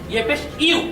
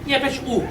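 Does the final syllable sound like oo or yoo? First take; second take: yoo; oo. First: The final syllable is a yoo sound. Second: The final syllable is a plain oo sound. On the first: The speaker calls it right. "আসল উচ্চারণটা হবে" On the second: The speaker calls it wrong. "কেউ কেউ এভাবে ভুল করে থাকেন"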